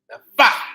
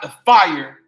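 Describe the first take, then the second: First: The word is said as clipped 'fye'. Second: The word is said as ordinary 'fire'. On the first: The speaker calls it right. "the F Y E" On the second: The speaker calls it wrong. "not the fire"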